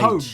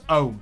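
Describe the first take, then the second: First: The word starts with an audible H sound. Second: The word starts without any H sound.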